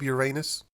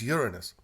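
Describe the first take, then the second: First: It is said in the joking pun pronunciation. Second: It is said in the Latin-like pronunciation. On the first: It is meant as a joke. "no more jokes. I don't even use that pronunciation" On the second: It is the speaker's usual serious pronunciation. "I use Uranus. It's truer to the Latin"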